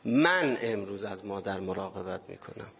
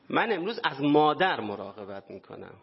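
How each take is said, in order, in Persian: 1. تکیه روی کلمه اول است. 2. تکیه روی کلمه «مادر» است.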